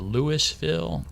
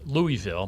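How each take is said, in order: First: It is said the rural country way. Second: It is said the standard outsider way. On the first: The speaker is from the far countryside. "that means they're a real hick" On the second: The speaker is from outside the area. "the proper pronunciation is Louisville"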